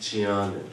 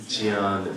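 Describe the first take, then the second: The two takes are said the same way.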